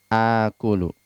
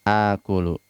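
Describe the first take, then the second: Both takes have the same delivery.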